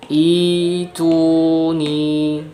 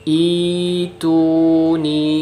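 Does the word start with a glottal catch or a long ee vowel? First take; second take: long ee; long ee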